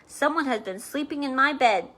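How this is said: It is said in a great big voice.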